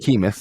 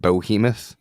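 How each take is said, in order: First: The first syllable sounds like 'bee'. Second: The first syllable sounds like 'bo'. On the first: The speaker calls it right. "it's it's behemoth" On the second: The speaker calls it wrong. "he pronounces it bohemoth"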